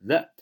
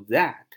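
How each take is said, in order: First: "that" reduced to a short "thuht"; unstressed, quick "that"; weak-form that. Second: "that" drawn out with a full open "a"; slow, fully stressed "that"; over-clear citation "that"; strong-form THAT. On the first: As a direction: say "that" lightly with a schwa. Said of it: "它都读that". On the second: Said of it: "都不读that". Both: Shown as a demonstration.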